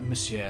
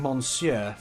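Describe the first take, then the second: First: The word is said without an N sound. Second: The word is said with an N sound. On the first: The speaker calls it right. "You actually don't pronounce the N. It's like Monsieur" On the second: The speaker calls it wrong. "we have been saying Monsieur for everything because that's how it's spelled"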